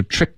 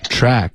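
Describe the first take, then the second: First: "trick" with a small-mouthed short I; "trick" said with the mouth barely open; mistaken narrow vowel. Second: "Track" with a wide open A vowel; teacher's model "Track", vowel stretched open; open-mouthed vowel. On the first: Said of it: "发的是trick". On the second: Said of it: "嘴巴要张开". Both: Shown as a demonstration.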